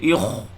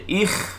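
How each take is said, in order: First: The kha sound is heavy and thick. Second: The kha sound is lighter and thinner. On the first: The speaker calls it wrong. "Tak boleh ikh" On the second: The speaker calls it right. "Kena baca ikh"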